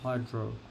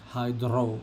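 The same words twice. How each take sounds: First: The R is plain, without a trill. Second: The R is rolled with a trill. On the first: "instead of hydro" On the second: "I like it when I roll my R's like hydro"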